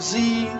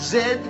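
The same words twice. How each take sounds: First: The letter is said as zee. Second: The letter is said as zed. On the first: The speaker calls it wrong. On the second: The speaker calls it right. "it's pronounced"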